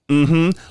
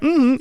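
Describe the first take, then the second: First: It sounds disapproving, like a stern scolding. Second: It sounds friendly, with a welcoming tune. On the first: It signals disapproval of the other person. "that's the tone of mm-hmm I was getting" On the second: It means you're welcome. "the melody, the tune of a "You're welcome.""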